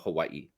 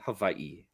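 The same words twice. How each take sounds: First: The middle consonant is a W sound. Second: The middle consonant is a V sound.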